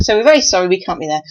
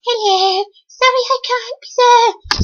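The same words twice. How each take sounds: First: Said in the usual way. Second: Much higher, squeaky put-on voice; John's voice again. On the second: Repeating John's apology in a much higher squeaky voice. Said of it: "So John can't come either today".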